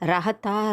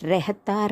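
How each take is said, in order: First: The first vowel sounds like 'ah'. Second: The first vowel sounds like 'eh'. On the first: The speaker calls it wrong. "ரஹத்தா ரஹத்தின்னு சொல்லலை" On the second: The speaker calls it right. "ரெஹத்தா ரெஹத்தின்னு சொல்லியிருப்பேன்"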